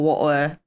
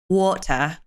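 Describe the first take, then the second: First: It is said in a Cockney accent. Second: It is said in an RP accent. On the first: "it's more Cockney is more of a water" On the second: "if you want to go into more like R P, it's like water"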